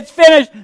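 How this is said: It sounds like a triumphant, cheering shout.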